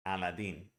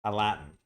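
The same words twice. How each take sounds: First: "Aladdin" with clear, full vowels and a crisp d; foreign Aladdin. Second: "a Latin" with a big open A, a glottal T and a syllabic N; "a Latin" as Americans say carpet. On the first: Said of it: "Say that's foreign". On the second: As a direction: say "a Latin" with the T swallowed in the throat. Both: Shown as a demonstration.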